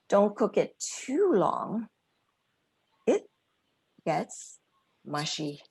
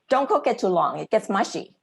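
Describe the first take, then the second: First: It sounds warm, with a long 'too' and pauses. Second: It sounds blunt and quick, without drawn-out words. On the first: It comes across as friendly teamwork. The speaker calls it right. "You could elongate the word too, and you could add spaces between it gets mushy" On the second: It comes across as a criticism of the cook. The speaker calls it wrong. "it doesn't sound very friendly and welcoming"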